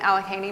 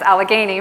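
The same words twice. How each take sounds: First: The g is pronounced soft, like j. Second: The g is pronounced hard, like in go. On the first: The speaker calls it wrong. "I think I said it wrong again" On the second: The speaker calls it right. "with a hard G"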